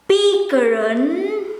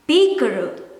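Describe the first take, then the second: First: The final N sound is clearly pronounced. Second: The final N sound is dropped. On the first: "Supposed to be pikeren" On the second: "most of the times you will hear it as pikeren"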